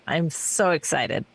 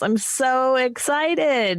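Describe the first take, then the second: First: Low, understated excitement; deadpan excitement. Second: Higher, slow, drawn-out excitement; gushing excitement. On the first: Host on everyone becoming compliant, deadpan excitement. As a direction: drop it down, dry and subdued. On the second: Host telling the panel about morality pills, gushing excitement. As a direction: stretch it out with showy glee. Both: Acted.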